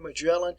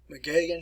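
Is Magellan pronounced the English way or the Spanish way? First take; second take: English; Spanish. First: The name is said with an English pronunciation. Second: The name is said with a Spanish pronunciation. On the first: This is the familiar form learned in school. "I know the way you've always learned how to pronounce it" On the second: This is the form used in Latin America. "south of the United States, the name is pronounced Magellan"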